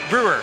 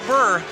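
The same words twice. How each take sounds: First: The name is said without a Southern accent. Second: The name is said with a Southern accent. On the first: The speaker calls it right. "As in Milwaukee Brewers" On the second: The speaker calls it wrong. "Not Brewer"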